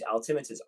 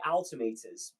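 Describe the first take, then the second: First: The word is said with an American pronunciation. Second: The word is said with a British pronunciation. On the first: "America use altimeters" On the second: "we say altimeters in Britain"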